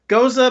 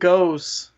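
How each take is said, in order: First: The word is said the German way, ending in a vowel. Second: The word is said the American way, like goes. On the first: "Goza might be a, a German word" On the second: "but goes is an American word"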